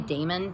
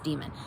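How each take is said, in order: First: The word is pronounced differently from 'demon'. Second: The word is pronounced exactly like 'demon'. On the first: It keeps the term apart from the idea of an evil spirit. "I'm gonna say daemon because it there some people do" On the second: This is the accepted standard pronunciation. "I know that it's actually supposed to be pronounced demon"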